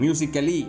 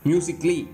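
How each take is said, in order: First: The a before ly is sounded, four syllables. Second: The a before ly is silent, three syllables. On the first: The speaker calls it wrong. "மியூசிக்கலி அப்படி சொல்லக்கூடாது" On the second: The speaker calls it right. "மியூசிக்லின்னு தான் சொல்லணும்"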